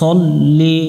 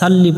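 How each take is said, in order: First: The first syllable is heavy, with a rounded vowel. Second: The first syllable is light, with an open vowel. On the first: The speaker calls it right. "এই অক্ষরটা মোটা করে পড়তে হবে" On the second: The speaker calls it wrong. "সাল্লি পড়া যাবে না"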